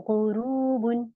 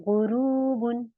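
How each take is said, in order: No difference in how they are said.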